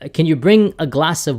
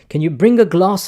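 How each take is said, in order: First: It is said in an American accent. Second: It is said in a British accent. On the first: "if an American says that" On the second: "I'm going to try my fake British accent here"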